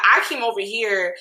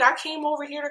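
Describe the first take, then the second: First: Said in the usual way. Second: High, put-on innocent voice; mock confused sweetness. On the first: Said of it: "I think that's what she said". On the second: Vlogger mimicking the star's excuse for coming over, fake sweet. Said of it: "like, confused and be like".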